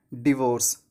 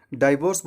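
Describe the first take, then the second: First: डिवोर्स starting "di", short i; correct pronunciation. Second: डाइवोर्स starting "die"; long i opening डाइवोर्स; wrong pronunciation. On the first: Teacher gives the correct form, डिवोर्स as "di-VORCE". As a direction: begin डिवोर्स "di", not "die". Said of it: "इसका सही उच्चारण होता है". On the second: Teacher shows the mistake, डाइवोर्स as "DIE-vorce". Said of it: "डाइवोर्स बोलना गलत है". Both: Shown as a demonstration.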